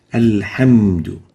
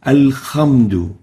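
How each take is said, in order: First: Alhamdu with a clean breathy ha, slow and loud; clear ha. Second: Alhamdu said as alkhamdu, rough kha. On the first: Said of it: "like this". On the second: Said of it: "pronounce the ha with a kha". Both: Shown as a demonstration.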